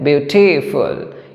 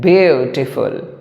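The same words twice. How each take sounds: First: The stress is on the second syllable. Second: The stress is on the first syllable. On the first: "if we now focus on the matter of t" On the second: "if we focus on the matter of beau"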